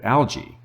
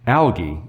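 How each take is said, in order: First: The word is said the American way. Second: The word is said the non-American way. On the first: "instead of algae" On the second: "non-American fish keeping YouTubers are pronouncing it algae"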